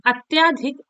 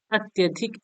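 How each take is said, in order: First: अत्याधिक with a long aa after ty; wrong form. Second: अत्यधिक with a short a after ty; correct form. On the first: Teacher showing a sandhi error, wrong long vowel. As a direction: stretch the "tyaa" in अत्याधिक. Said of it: "ऐसे लिखा नहीं जाता है". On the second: Teacher correcting a sandhi error, correct short vowel. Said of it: "ऐसे लिखा जाता है". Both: Shown as a demonstration.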